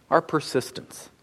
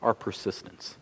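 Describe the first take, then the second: First: Soft, deliberate repeat of "Our persistence"; repeated for emphasis. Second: Hushed, weighty "our persistence"; quiet emphasis. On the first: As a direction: echo "Our persistence" gently to drive it home. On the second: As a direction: drop to a low, soft hush on "our persistence". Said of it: "is that prayer requires". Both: Shown as a demonstration.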